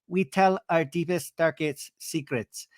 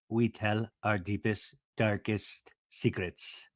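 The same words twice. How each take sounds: First: It is said in a high, childlike voice. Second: It is said in a lower, stronger voice. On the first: "she has her little kind of baby voice" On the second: "trying to go an octave lower"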